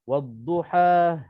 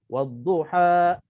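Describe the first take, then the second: First: The final vowel trails off into a breathy h. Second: The final vowel is cut off with a glottal stop. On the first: "Kalau kita lepas nafas, wadduha dia ada ha" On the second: "kalau kita tahan nafas, wadduha ha macam ada hamzah"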